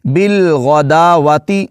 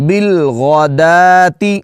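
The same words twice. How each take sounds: First: بالغداواتی with the extra wa sounded; wrong way. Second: بالغداتی with no waw, slow; corrected slow بالغداتی. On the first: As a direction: say بالغداواتی pronouncing the waw. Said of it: "اس طرح نہیں پڑھیں گے جی". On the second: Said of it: "اس کا تلفظ ہوگا بالغداتی". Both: Shown as a demonstration.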